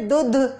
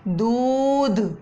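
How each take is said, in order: First: The first vowel is short. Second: The first vowel is long. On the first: The speaker calls it wrong. "तो आप ऐसे तो नहीं बोलते" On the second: The speaker calls it right. "थोड़ा सा बड़ा करके बोला जाता है"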